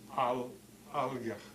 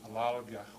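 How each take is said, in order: First: A glottal stop breaks the word in the middle. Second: The word runs smoothly with no glottal stop. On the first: The speaker calls it right. "You have to write it in there" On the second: The speaker calls it wrong. "alalgach without a glottal stop"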